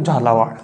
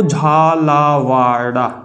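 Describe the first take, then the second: First: झालावाड़ ending clipped on ड़ with no final vowel; corrected name. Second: झालावाड़ा with a long final -आ, drawn out slowly; wrong name said first. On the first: (झालावाड़, आख़िरी आ के बिना, ड़ पर रुककर) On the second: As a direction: say झालावाड़ा ending on a stretched आ, as the slip. (झालावाड़ा, अंत में लंबा आ, धीरे खींचकर) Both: Shown as a demonstration. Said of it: "झालावाड़ा नहीं".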